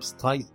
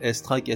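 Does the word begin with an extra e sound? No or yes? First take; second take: no; yes. First: The word starts directly with the s sound. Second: The word starts with an e sound before s. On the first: The speaker calls it wrong. "On ne dit pas" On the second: The speaker calls it right. "on dit"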